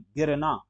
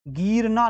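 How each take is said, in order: First: गिरना as a quick "girna"; short i. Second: गिरना as "geerna"; wrong long ee. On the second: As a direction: draw out the first vowel of गिरना. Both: Shown as a demonstration. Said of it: "गिरना नहीं".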